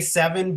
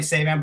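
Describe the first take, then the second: First: The name sounds like the number seven. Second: The name does not sound like seven. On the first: This is how most people say the name. The speaker calls it wrong. "a lot of people say seven" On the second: This is how the family really says the name. The speaker calls it right. "but it's really Saban"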